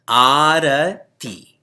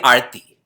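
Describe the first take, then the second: First: All three vowels are said, slowly. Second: The middle vowel is dropped. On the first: The speaker calls it right. "Long A, then short A" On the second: The speaker calls it wrong. "now we just say Arti"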